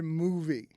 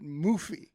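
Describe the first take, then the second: First: The middle consonant is a V sound. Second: The middle consonant is an F sound. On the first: The speaker calls it right. "There's not an F" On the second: The speaker calls it wrong. "put an F right in the middle of the word"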